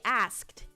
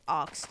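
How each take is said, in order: First: The word is said in an American accent. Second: The word is said in an Australian accent. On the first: "Americans would say asked" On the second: "I'm Australian. Go ox any Australian how they say oxed"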